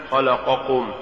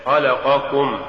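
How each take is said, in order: First: خلقكم with ق turned into ك; faulty reading of خلقكم, ك replacing ق; mispronounced ق. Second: Said in the usual way. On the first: Shown as a demonstration. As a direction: say خلقكم with a light k for the q. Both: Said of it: "تقرأ لحنا".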